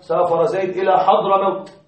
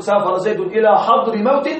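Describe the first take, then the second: First: حضر موت as one fused word, "Hadramawt"; natural "Hadramawt" on حضر موت; usual compound form. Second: حضر موت as "hadri mawtin", two inflected words; questioning wrong example, "hadri mawtin" for حضر موت; wrong genitive construct. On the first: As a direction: say حضر موت joined, with no case ending inside. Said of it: "تستعملها تقول حضر موت". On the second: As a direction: put "-i" and "-in" endings on حضر موت. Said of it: "ما نسمعها هكذا". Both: Shown as a demonstration.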